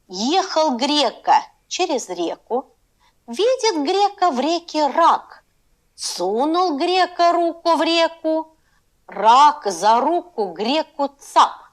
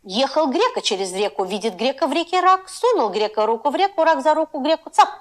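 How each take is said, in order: First: It is read at a slow pace. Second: It is read at a medium pace.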